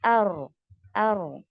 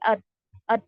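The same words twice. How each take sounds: First: The r has a slight, moderate trill. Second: The r is fully stopped, with no trill. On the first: The speaker calls it right. "ठीक है" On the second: The speaker calls it wrong. "ये शिद्दा हुआ"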